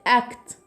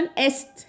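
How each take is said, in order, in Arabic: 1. يُنطق حرف C بصوت K. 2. يُنطق حرف C بصوت S. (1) "لا قلت اكت" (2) "ما قلتش مثلا است"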